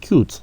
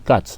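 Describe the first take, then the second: First: The vowel is long, like the word 'you'. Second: The vowel is short, like in 'cut'. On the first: The speaker calls it right. "Non, non, non, c'est cute" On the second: The speaker calls it wrong. "J'entends souvent les gens dire ici cat"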